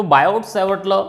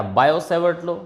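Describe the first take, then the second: First: "बायोट" with an audible T before "Savart"; T pronounced. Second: "बायो" running into "Savart" with no T; silent T. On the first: Teacher offers students the first option, T pronounced. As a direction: sound the T closing "बायोट". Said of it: "जो आपका मन करे वो बोलो". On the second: Teacher offers students the second option, with silent T. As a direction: leave "बायो" open on the O, T unspoken. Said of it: "वैसे टी silent होता है इसमें". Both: Shown as a demonstration.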